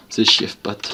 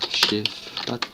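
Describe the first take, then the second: First: Said in the usual way. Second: "Chief Pat" in a mock English accent, each word set apart. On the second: Shown as a demonstration. Naming an English youtuber to viewers, "Chief Pat" in an English accent. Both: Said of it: "Avec mon super accent".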